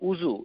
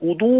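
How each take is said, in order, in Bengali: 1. মাঝের ব্যঞ্জনটি জ-এর মতো শব্দ। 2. মাঝের ব্যঞ্জনটি ড-এর মতো শব্দ। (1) "আমরা সবাই বলি উজু, এই এই এই এই শব্দে কোনো জিনিস নাই।" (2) "এটা হচ্ছে উদু, ওয়াও দোয়াত"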